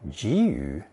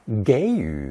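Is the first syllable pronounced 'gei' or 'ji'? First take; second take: ji; gei. First: The first syllable is pronounced ji. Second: The first syllable is pronounced gei. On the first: This is the formal reading taught in school. "the formal 集语 being taught in school" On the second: This is the common everyday reading. "Many Chinese pronounce it 给予 instead"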